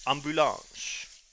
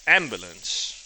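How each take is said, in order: First: "ambulance" slow with a French accent. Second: "ambulance" said plainly in English; English pronunciation. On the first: Streamer showing the French word, slow French accent. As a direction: stretch "ambulance" the French way, nasal vowels. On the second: Streamer listing the word in English, plain. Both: Shown as a demonstration.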